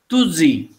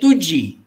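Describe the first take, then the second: First: The middle consonant is a z sound. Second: The middle consonant is a j sound. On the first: The speaker calls it wrong. "the pronunciation becomes Tuzi" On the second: The speaker calls it right. "we say Tuji"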